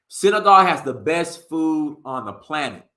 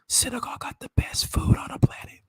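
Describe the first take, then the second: First: It is said in a full voice. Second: It is whispered.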